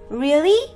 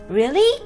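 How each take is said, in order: First: The word rises strongly, sounding very surprised. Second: The same.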